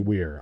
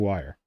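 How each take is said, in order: First: The name rhymes with 'ear'. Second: The name rhymes with 'fire'. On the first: The speaker calls it wrong. "They don't say Weir. I screw that up for so long" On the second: The speaker calls it right. "but they say wire"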